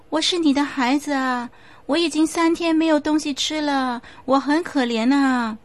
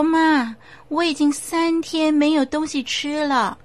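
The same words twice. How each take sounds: First: Put-on higher, whining plea of a hungry child; pitiful child ghost. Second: Put-on higher, plaintive begging child voice; a hungry child spirit pleading; pleading child ghost. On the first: The ghost child pleads with his grieving mother, whining. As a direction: makes the mother pity him. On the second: The ghost child begs his mother for food, higher and plaintive.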